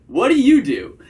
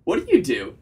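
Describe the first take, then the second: First: "What do you do" high and loud, then swooping down; flirty tonality. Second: "What do you do" said level, dropping at the end; hard period. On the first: Coach shows how to ask her job, flirty emphatic tone. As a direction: punch it playfully, falling hard on "do". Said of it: "that flirty vocal tonality". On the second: Coach shows how to ask her job, hard-period tone. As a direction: make "do" a full stop, no question lilt. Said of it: "hard period". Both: Shown as a demonstration.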